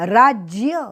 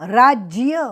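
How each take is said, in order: The two takes are said the same way.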